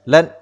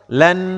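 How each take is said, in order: First: The final n is cut short without nasal hum. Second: The final n is held with a nasal hum. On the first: The speaker calls it wrong. "tidak dibaca lan ya" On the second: The speaker calls it right. "Berilah sifat gunnah dan tawassut ya"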